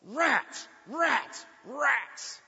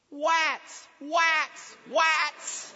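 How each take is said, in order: First: High, loud, sharp bursts; retold yell. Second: Put-on little kid's high, loud echo yell; Erin. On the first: Driver cursing the truck that cut across, yelled. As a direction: yell it out as three separate cries. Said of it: "but I yelled". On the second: Kid in the car seat echoing dad, high mimicking shout. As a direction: mimic a small child parroting a yell, R turned to W. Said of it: "from the back seat I heard".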